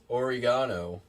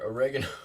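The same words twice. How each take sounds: First: It is said with a British accent. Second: It is said with an American accent. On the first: "as the British say" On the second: "here's our oregano"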